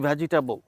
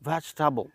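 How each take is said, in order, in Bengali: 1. শব্দটি চার সিলেবলে উচ্চারিত হয়। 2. শব্দটি তিন সিলেবলে উচ্চারিত হয়। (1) "আমরা বলি" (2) "সঠিক উচ্চারণটা"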